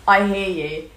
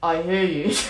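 First: The voice is at its normal pitch. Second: The voice is lowered to sound like a man. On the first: "Just do it normally" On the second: "I can lower my voice to a man's voice"

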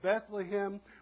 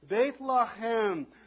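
First: The name is said with English sounds. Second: The name is said with Hebrew sounds. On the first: "anglicize that pronunciation and you get Bethlehem" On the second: "That's how you would say that if you were a good Hebrew"

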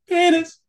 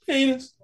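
First: The word is said loudest of all. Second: The word is said noticeably louder. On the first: The player tries to win. "then you're like" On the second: The other player raises the stakes. "then your buddy's like"

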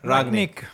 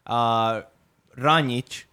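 First: The name is said without a ch sound. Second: The name is said with a ch sound. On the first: The speaker calls it right. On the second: The speaker calls it wrong. "No, I don't think there's a ch sound"

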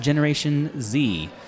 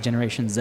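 First: The letter Z is said the American way, 'zee'. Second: The letter Z is said the Canadian way, 'zed'.

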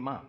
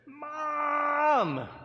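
First: It is said at a normal volume. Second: It is shouted loudly.

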